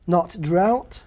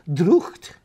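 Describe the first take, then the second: First: Said in the usual way. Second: "Drucht" with a throaty ch; sounded gh. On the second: Shown as a demonstration. Scholar showing gh as ch, "Drucht" with throaty ch. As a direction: say "Drucht", the gh as a Scots ch. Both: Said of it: "G H still has a value".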